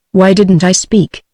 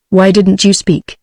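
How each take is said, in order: First: Scornful. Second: Said in the usual way. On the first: A narrator's reading. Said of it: "he demanded scornfully". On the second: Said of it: "he said en route".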